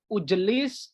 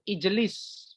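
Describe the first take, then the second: First: The word begins with a u vowel. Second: The word begins with an i vowel. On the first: The speaker calls it wrong. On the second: The speaker calls it right.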